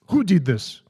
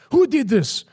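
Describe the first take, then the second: First: Said in the usual way. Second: Very high, loud mock outrage; comical shouting. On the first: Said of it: "So he said". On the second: Guru confronting priests over broken peacock, comical shouting. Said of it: "he started shouting".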